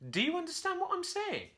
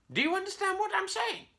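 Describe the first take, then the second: First: Much higher, baffled question; perplexed monkey. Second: Very high squawky parrot echo; parrot repeating. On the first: Puzzled Curly questions the copying parrot, high and baffled. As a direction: ask it bewildered and shrill. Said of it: "Curly was perplexed". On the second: Parrot echoes Curly's question in a squawky high voice. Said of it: "the parrot said". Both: A narrator's reading.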